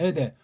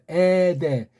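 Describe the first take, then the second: First: The word is tossed off quickly without care. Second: The vowel is drawn out long and deliberately. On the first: The reader only cares about the dictionary meaning. The speaker calls it wrong. "건성으로 그냥" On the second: The reading itself conveys the meaning. The speaker calls it right. "요게 긴 에타니까 길게 읽는 거예요"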